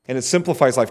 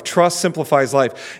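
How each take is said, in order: First: Said in the usual way. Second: "Trust" leaned on, the line taken slowly; stress on trust. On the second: Shown as a demonstration. Preacher repeating his point to the congregation, slowly, stressing "Trust". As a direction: weigh the word "Trust", then ease through the rest.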